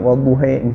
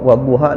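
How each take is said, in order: First: The word ends with an 'e'-like vowel. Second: The word ends with an open 'a' vowel. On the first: This is a variant reading. "dibacanya wadduhe ya, kan jadi beda" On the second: This is the usual reading. "misalnya kalau wadduha"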